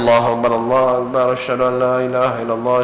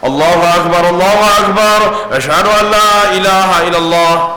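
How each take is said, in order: First: It is recited quietly and calmly. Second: It is recited loudly, like a public call.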